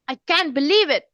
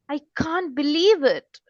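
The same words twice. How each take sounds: First: It sounds angry and upset. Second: It sounds surprised, with a rising tune.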